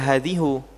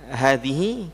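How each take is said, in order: First: The word ends with a 'u' vowel. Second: The word ends with an 'i' vowel. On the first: The speaker calls it wrong. "bukan berarti dia dibaca hadhihu" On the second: The speaker calls it right. "Tapi tetap hadhihi karena apa? Karena mabni"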